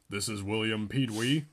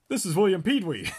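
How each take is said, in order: First: It is said in an adult voice. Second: It is said in a child's voice.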